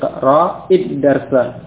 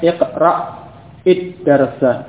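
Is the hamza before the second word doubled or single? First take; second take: single; doubled. First: The hamza is said once, flowing straight into the vowel. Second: The hamza is stopped then doubled before the vowel. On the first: The speaker calls it right. "ketika dia di kasrah tidak tasdid" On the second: The speaker calls it wrong.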